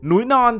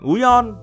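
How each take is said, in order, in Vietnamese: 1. Cả hai từ đều giữ âm n ở đầu. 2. Cả hai từ đều mất âm n ở đầu.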